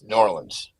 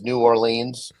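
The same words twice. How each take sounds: First: The name is said the clipped local way. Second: The name is said the drawn-out outsider way. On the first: The speaker is from the city. "you're from there, it's New Orleans" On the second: The speaker is from elsewhere. "rest of the country says New Orleans"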